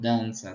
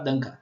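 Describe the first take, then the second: First: The consonant before the final vowel is an 's'. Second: The consonant before the final vowel is a 'k'. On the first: The speaker calls it right. "enquanto que é dança" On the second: The speaker calls it wrong. "não vão reconhecer esse rabinho aí no C e vai falar danca"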